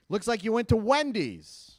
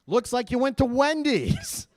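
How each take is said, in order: First: Bank agent. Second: Higher, louder, slower, rising at the end; incredulous bank agent. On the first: Bank agent reads back the charges. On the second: Bank agent reads out a second Wendy's charge, mock incredulous. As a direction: stretch it out in mounting mock disbelief. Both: Acted.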